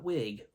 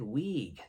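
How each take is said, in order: First: The word is said in a standard accent. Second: The word is said in a thick country accent. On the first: This is how the friend did not say it. "not wig" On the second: This is how the friend said it. "she said wig"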